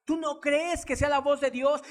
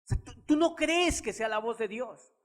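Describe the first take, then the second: First: "voz" pushed up high and louder, rising at the end; insistent repeat. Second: Said in the usual way. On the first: Acted. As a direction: press the question on the listener a second time. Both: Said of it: "repeats the question louder".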